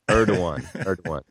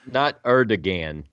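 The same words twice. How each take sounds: First: The middle consonant is a w sound. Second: The middle consonant is a hard g sound. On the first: The speaker calls it right. "The G is pronounced as a W" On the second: The speaker calls it wrong. "Not Erdogan"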